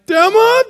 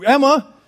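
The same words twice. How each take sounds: First: High, loud, embarrassed call; voice going up. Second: Light, higher-pitched call. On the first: Embarrassed dad calls for missing daughter, voice jumping high and loud. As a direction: call out with the pitch shooting up. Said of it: "your voice kinda goes up a little bit". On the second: Dad calls his hiding daughter in a store, lightly calling out. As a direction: call her name, not yet worried. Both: Retold or imitated.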